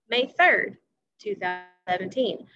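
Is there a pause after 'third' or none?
pause. There is a pause between the day and the year. "I paused there"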